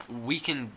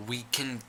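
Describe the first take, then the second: No difference in how they are said.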